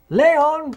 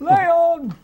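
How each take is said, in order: First: High, loud call of Leon; shouted name. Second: Higher shout of Leon; shouted name. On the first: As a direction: yell it like the film's cry. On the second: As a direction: yell it again even higher. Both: Retold or imitated. Quoting film's shouted name.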